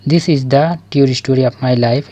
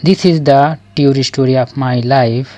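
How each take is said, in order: Both takes have the same delivery.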